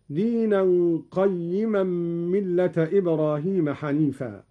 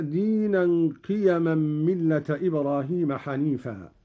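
First: "قيما" as qayyiman, fatha on ق, doubled ي with kasra; qayyiman reading. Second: Said in the usual way. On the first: Shown as a demonstration. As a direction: set out "قيما" carefully with doubled yy. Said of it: "بفتح القاف وكسر الياء مشددة". («قيما» بفتح القاف وكسر الياء مشددة)

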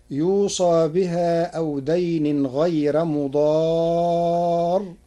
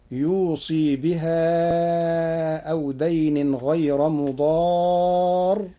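First: يوصى recited slowly with a fatha on the ص, yuusaa; Hafs reading. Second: يوصي recited very slowly as yuusii, with a kasra on the ص and a ي after it; kasra on saad. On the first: Teacher quoting the usual reading of يوصى, slow and chanted. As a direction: draw out يوصى as yuu-saa in slow recitation. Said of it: "قرأ ورش كلمة يوصى". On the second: Teacher showing Warsh's يوصي with the kasra, very slow. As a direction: chant يوصي with a final ii. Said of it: "بكسر الصاد وياء بعدها". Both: Shown as a demonstration.

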